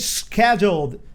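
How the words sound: Schedule is said the American way. The speaker calls it wrong. "We don't we don't say scheduled up here"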